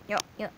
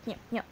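Both takes have the same delivery.

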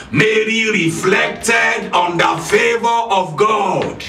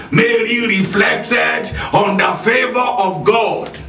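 Both takes have the same delivery.

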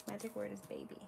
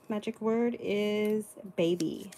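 First: Softly repeated aside. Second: Loud, slow announcement. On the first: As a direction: say it again under your breath. Quiet repeat of the magic word. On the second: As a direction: call it out slowly and clearly. Announcing the sale's magic word. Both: Real, not acted.

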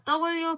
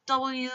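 First: Said in the usual way. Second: W with a very long final oo; drawn-out pronunciation. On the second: Shown as a demonstration. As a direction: stretch the end of W right out. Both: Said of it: "W 발음 길게 해볼까요?".

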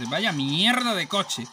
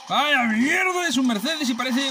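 First: Said in the usual way. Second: Exasperated drawn-out yell. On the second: Real, not acted. Repeats complaint, louder and drawn out.

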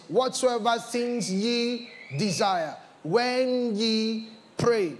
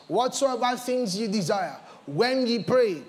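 First: Stretched out word by word; slow it right down to drive it home; slow emphatic repeat. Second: Said in the usual way. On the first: Shown as a demonstration. Preacher repeating the verse to the church, slowly stretched. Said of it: "second reading slowed". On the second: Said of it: "first reading of the verse".

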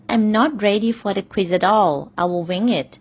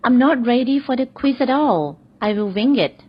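First: Very slow, careful repeat; slow example repeat. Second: Very slow read, pitched higher; slow example sentence. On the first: Teacher repeats the quiz example slowly to learners. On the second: Teacher models the quiz example slowly to learners. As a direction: stretch it out so students catch every word. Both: Shown as a demonstration. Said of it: "หรือ".

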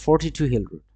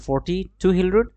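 First: "forty-two" run together as one number, quick and falling; no break inside "forty-two", faster pace; joined forty-two. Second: "forty-two" split as forty, then two Hill Road, rising; pause after forty. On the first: Teacher showing forty-two as one number, joined phrasing. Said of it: "আর এটা বলবে কি?". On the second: Teacher showing forty, two Hill Road, split phrasing. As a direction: break "forty-two" after forty and leave the tune open. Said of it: "এটা বললে কি বলবে?". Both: Shown as a demonstration.

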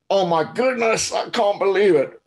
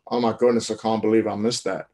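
First: High, dismayed "Oh my goodness, I can't believe it"; berating yourself after a miss; upset inner voice. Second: Said in the usual way. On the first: Shown as a demonstration. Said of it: "the tone of voice that you use with your internal dialogue". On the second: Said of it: "Same words, but a different meaning because of the tone of voice".

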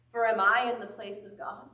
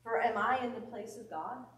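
First: Louder, pressing repeat of the question; emphatic repeat. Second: Said in the usual way. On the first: Shown as a demonstration. Preacher repeating Joseph's question to the congregation, louder. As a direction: drive the question home harder.

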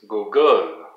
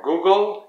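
First: "Google" with a long stressed "gle"; French pronunciation. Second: Said in the usual way. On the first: Shown as a demonstration. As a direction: say "Google" the French way, weight at the end. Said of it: "So in French". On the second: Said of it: "For Google".

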